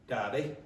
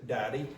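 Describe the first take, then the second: The two takes are said the same way.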